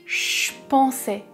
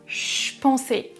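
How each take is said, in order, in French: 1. Le mot « je » est réduit à un son ch. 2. Le mot « je » est réduit à un son ch.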